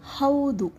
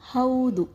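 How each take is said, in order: Both takes have the same delivery.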